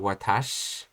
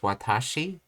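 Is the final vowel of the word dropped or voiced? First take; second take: dropped; voiced. First: The final i vowel is dropped, ending on sh. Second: The word ends with a clear final i vowel. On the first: "as I heard the Japanese speaker, I started to change to watash" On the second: "I was basically pr- pronouncing it as watashi"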